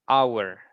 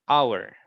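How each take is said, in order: Both takes have the same delivery.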